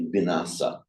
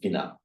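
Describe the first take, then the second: First: The word is said with its full final syllable. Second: The word is said with the final syllable dropped. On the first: This is the word as said in Pali. "speaking Pali, they can perfectly well say vinasa" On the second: This is the word as borrowed into Thai. "as the word has gone into Thai, they just go vina"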